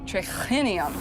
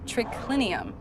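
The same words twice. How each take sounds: First: The c sound is breathy, like ch. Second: The c sound is a plain k. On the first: The writer was not a native Latin speaker. "triclinium has an H in it, so it would be pronounced" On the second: A native Latin speaker would say it this way. "instead of"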